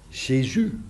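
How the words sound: The name is said with French pronunciation. "volgens de tongval van de Fransen"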